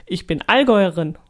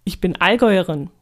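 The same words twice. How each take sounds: The two takes are said the same way.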